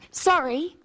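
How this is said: It is said as an apology.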